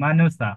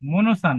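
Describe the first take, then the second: First: The first vowel sounds like an open 'a'. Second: The first vowel sounds like a rounded 'o'. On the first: The speaker calls it right. "কিন্তু মানসা" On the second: The speaker calls it wrong. "মনসা না"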